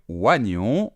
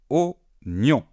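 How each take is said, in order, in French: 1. La première voyelle se prononce avec le son i. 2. La première voyelle se prononce sans le son i. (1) "On ne va pas dire oignon" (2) "Il y a un i et pourtant on ne le prononce pas"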